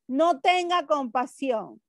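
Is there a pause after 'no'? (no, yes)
no. The words run together without a pause. Have no compassion. "Miren que aquí no hay coma"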